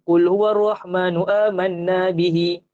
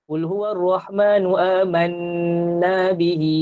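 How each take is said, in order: First: The nasal sound is clipped short. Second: The nasal sound is held longer. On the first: The speaker calls it wrong. "dia tak cukup tu" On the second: The speaker calls it right. "Baru cukup dengung dua harakat"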